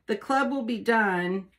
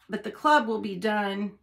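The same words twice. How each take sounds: First: Talking with tongue sticking out. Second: Said in the usual way. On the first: Real, not acted. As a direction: say it with your tongue out. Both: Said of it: "I have to have my tongue sticking out".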